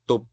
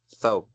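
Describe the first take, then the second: First: The first sound is a plain 't' sound. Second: The first sound is a clear 'th' sound. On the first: "kalau orang-orang biasa mengucapkannya tub ya" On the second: "Istilahnya apa? Saub"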